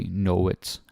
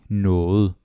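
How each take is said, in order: First: The ending is said hard and clearly. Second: The ending is said softly. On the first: The speaker calls it wrong. "we don't really say know it" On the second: The speaker calls it right. "we say it like noget, softy"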